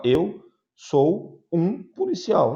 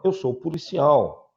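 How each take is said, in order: First: Slow, stressed wrong "Eu sou um policial"; wrong version. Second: Said in the usual way. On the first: Shown as a demonstration. Teacher to class, showing the wrong phrasing slowly. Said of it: "o Tino pode falar". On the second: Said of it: "Não".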